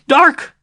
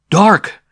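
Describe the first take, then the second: First: Put-on high, loud old woman's cry; excited old woman. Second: Loud, stunned exclamation; shocked. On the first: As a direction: cry out her own name in joy. Sister names herself. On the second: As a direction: blurt the name in horror. Sim echoes, shocked. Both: A narrator's reading.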